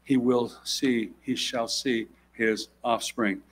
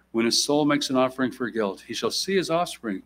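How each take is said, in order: First: He will see said very slowly, each word weighed; stressing the future tense. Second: Said in the usual way. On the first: Shown as a demonstration. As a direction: lean on "will" and "shall" in "he shall see his offspring", slowly. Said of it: "We go to future tense now". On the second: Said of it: "even the tense of the language changed".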